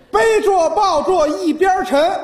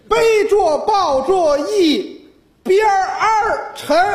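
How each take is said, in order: First: The word 边 is said plainly without r-colouring. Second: The word 边 ends with an r-coloured sound.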